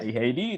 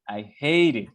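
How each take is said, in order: First: The stress is on it. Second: The stress is on hate.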